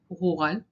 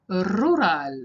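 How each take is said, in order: First: It is said with an Israeli accent. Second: It is said with a Spanish accent.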